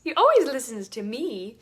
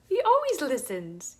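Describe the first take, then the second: First: Always hit hard, louder and falling; louder insistence. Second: Always stressed and lifted; emphatic always. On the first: Reassuring a hurting woman God listens, louder emphasis. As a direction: repeat it firmer, punching always. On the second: Telling a doubting woman God always listens, stressed. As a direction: lean on the word always. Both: Retold or imitated.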